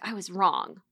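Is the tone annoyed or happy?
annoyed. It sounds annoyed and frustrated.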